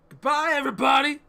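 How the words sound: The voice is pitched very high.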